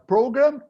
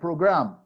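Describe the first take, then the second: First: The stress is on the first syllable. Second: The stress is on the second syllable. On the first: It is used as a verb. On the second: It is used as a noun.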